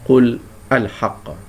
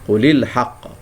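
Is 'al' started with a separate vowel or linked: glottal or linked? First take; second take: glottal; linked. First: The article starts with its own separate vowel. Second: The article's vowel is dropped and linked. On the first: The speaker calls it wrong. "Bukan kita cakap" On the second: The speaker calls it right. "tapi kita sebut"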